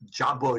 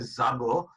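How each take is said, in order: First: The word begins with a j sound. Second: The word begins with a z sound. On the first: The speaker calls it right. "instead of saying jabo" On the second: The speaker calls it wrong. "if you say zabo, it doesn't sound very good"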